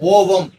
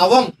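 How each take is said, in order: First: The first vowel is a rounded 'oh' sound. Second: The first vowel is an open 'ah' sound. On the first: The speaker calls it wrong. "ஓவம்னு படிக்க கூடாது" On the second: The speaker calls it right. "அகரத்தினுடைய உச்சரிப்புல தான் படிக்கணும்"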